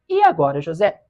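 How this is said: It is read with an ironic tone.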